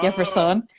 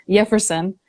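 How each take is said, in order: First: The stress falls on the last syllable. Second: The stress falls before the last syllable. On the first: "in Spanish it's Jefferson with an Jefferson on the son" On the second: "the English pronunciation is"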